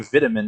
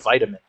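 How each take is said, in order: First: It is said the European way. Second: It is said the American way. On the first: "European, they say vitamin" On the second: "instead of vitamin"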